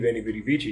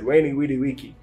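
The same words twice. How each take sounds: First: Each word begins with a V sound. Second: Each word begins with a W sound. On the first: The speaker calls it wrong. "he didn't say" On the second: The speaker calls it right. "He said"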